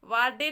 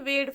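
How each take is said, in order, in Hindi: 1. यह दो अक्षर है, स्वर 'aa' के साथ। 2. यह एक अक्षर है, स्वर 'ay' के साथ। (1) "वाडे नहीं" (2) "वेड पढ़ेंगे"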